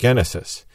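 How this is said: It is said with a Greek pronunciation. "Greeks would pronounce it Genesis"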